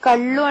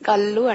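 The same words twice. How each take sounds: First: The double L is retroflex, tongue curled back. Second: The double L is a plain dental L. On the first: The speaker calls it right. "కళ్ళు అనడానికి ఎందుకు కష్టపడాలి" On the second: The speaker calls it wrong. "కళ్ళు అంటే అయిపోయింది"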